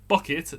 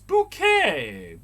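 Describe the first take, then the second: First: It sounds like the word 'bucket'. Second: It sounds like the French-style word 'bouquet'. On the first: It is the name as spelled. "Her name was Bucket" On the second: It makes the name sound posh. "She pronounced it Bouquet"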